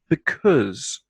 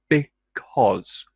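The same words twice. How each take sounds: First: The second vowel sounds like the one in should. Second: The second vowel sounds like the one in log. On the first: The word is said quickly inside a sentence. "like the O U, the vowel sound, in should" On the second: The word is emphasized or starts a sentence. "pronounced like the O, the vowel sound, in log"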